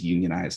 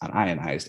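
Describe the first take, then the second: First: It is said as union plus ized. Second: It is said as un plus ionized. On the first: It means organized into a labor union. "the plumber sees unionized" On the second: It means not ionized. "the chemist sees unionized"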